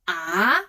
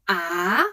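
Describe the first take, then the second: First: The pitch rises from middle to high. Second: The pitch rises from middle to high.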